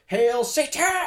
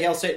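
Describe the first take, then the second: First: It is said loudly, with dramatic energy. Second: It is said plainly, without much energy.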